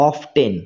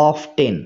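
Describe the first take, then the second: The two takes are said the same way.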